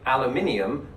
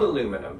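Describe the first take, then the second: First: It is said the British way. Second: It is said the American way. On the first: "if it was spelled the British way, aluminium" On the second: "I pronounce this aluminum because it's spelled aluminum"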